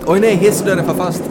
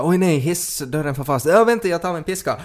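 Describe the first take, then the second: First: High, very loud mock panic; shouted comic distress, pitched way up; hammed-up alarm. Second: High-pitched pretend panic; hammed-up cry to hold on; mock alarm. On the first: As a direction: cry out in pretend emergency at full volume. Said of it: "Jag gör det en gång till". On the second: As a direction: act out a sudden emergency, voice jumping up. Acted lift door emergency.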